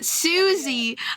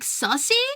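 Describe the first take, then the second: First: The first vowel is a long oo sound. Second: The first vowel is a short uh sound. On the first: The speaker calls it right. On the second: The speaker calls it wrong.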